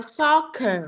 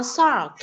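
First: Soccer with a clear final syllable; correct reading. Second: Sock, short, without the second syllable; wrong reading. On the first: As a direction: soccer said as sóc-cơ. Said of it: "mà không đọc là soccer". (đọc đúng soccer) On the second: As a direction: sock cut off after the k. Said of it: "không đọc là sock". (đọc sai thành sock) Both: Shown as a demonstration.

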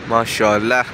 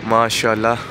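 The two takes are said the same way.

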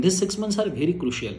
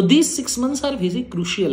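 First: "these six months are very crucial" slow and level, at normal loudness; calmer repeat. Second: "these" hit high and loud, whole phrase slow and weighty; urgent emphasis. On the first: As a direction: restate it slowly, less pushed. ("these six months are very crucial" धीरे, शांत दोहराव) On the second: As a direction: pound out "these six months are very crucial" slowly. ("these six months are very crucial" ज़ोर देकर, धीरे-धीरे, ऊँचे सुर में) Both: Shown as a demonstration. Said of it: "please do understand".

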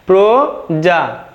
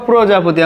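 First: "প্রজাপতি" very slowly as pro, ja, po, ti; slow correct pronunciation. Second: Said in the usual way. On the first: Shown as a demonstration. Teacher answering how it is pronounced, slow and syllabic. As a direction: stretch "প্রজাপতি" into four clear syllables. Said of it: "শুদ্ধ উচ্চারণটি কেমন হবে". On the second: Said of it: "আমরা লিখতে পারি".

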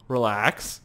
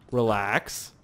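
Both takes have the same delivery.

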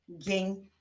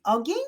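First: "Ogień" split into O, gień; syllable by syllable. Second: Said in the usual way. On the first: Shown as a demonstration. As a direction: pause after the O in "Ogień". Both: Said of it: "wyklaszczmy sylaby".

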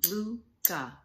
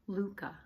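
First: Luca in two separate beats, Lu-ca; syllable by syllable. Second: Said in the usual way. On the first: Shown as a demonstration. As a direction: tap out each syllable of Luca. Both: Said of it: "You can tap or clap".

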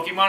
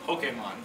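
First: "Pokemon" said as poke-ee-mon, with a kee sound; wrong pronunciation. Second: "Pokemon" said as poh-kay-mon with a long A; correct pronunciation. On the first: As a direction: say "Pokemon" with an ee after the k. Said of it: "You're gonna go". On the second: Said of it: "I'm gonna go". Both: Shown as a demonstration.

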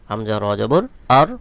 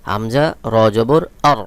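No difference in how they are said.

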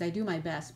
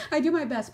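First: Said in the usual way. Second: "I do my best" pitched higher and louder, stress on "my"; insistent self-defence, higher and louder; emphatic repeat. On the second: Shown as a demonstration. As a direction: lean hard on "my" as you say it again.

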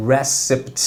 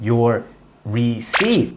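First: Receipt said slowly as "re-sipt"; receipt pronounced deliberately, syllable by syllable; careful pronunciation. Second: Receipt said as "risi", pausing on Your; receipt said the wrong way, rising at the end; wrong pronunciation. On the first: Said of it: "เพราะเป็นคำภาษาฝรั่งเศส". (ออกเสียง receipt ชัดๆ) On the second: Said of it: "ถูกต้องครับ จำได้คำนี้ไม่ได้อ่านว่า". (ออกเสียง receipt ผิด) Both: Shown as a demonstration.

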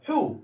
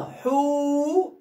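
First: حو cut short, no lengthening; said quickly. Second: حو with a long held "oo"; mistakenly lengthened. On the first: Teacher corrects a word without waw, حو said short and fast. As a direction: say حو as one quick short syllable. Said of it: "أقولها بسرعة بقى". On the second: Teacher makes a deliberate mistake for pupils, حو drawn out too long. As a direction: stretch حو out as if it had a waw. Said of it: "أنت قلت غلط يا أستاذ". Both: Shown as a demonstration.

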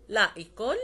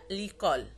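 First: "لا ايكول" said as two words, both vowels sounded; two separate words. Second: "ليكول" joined as a single word, falling at the end; elided into one word. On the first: Teacher showing students the unjoined form, "لا ايكول" as two words. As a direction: keep the full "لا" apart from "ايكول". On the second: Teacher turning two words into one, "ليكول" elided. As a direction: drop the article's a, l straight into "ليكول". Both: Shown as a demonstration. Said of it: "بتخلي les deux mots يصبحوا une mot".

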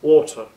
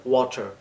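First: Water in a British accent, ওয়াটার with no r sound. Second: Water in an American accent, ওয়াটার with a flapped t. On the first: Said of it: "যদি British স্টাইলে বলি তাহলে হবে". (British উচ্চারণে ওয়াটার) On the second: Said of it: "আর যদি American স্টাইলে বলি তাহলে". (আমেরিকান উচ্চারণে ওয়াটার) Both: Shown as a demonstration.

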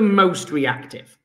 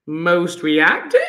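First: Said in the usual way. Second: Slow MOST REACTIVE with rising tune at the end; "Most reactive" slowly, swooping up on REACTIVE; questioning rise. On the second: Shown as a demonstration. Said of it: "Question mark".

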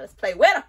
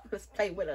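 First: Eager to start styling, said louder. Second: Said in the usual way. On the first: Acted. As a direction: repeat it with a louder, livelier push. Says it twice, second louder.

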